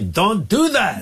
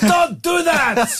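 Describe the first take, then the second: First: It is said weakly, without force. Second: It is said forcefully, with extra energy.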